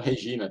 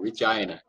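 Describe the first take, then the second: First: It is said with a Brazilian Portuguese accent. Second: It is said with a Canadian English accent. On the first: This is how Brazilians say it. "eles não falam Regina" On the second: This is how locals say it. "eles falam Regina"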